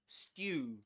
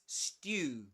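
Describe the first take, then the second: First: It is said in a British accent. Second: It is said in a British accent.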